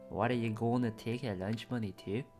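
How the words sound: It is said in an Irish-sounding accent.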